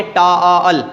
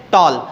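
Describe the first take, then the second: First: टॉल stretched very slowly like two beats; slow, split टॉल as a mistake to avoid; drawn-out wrong way. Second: Said in the usual way. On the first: Shown as a demonstration. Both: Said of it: "ना के टॉल".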